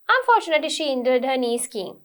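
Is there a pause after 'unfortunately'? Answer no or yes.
no. It runs on with no pause after the first word. The speaker calls it wrong. "you don't say it like"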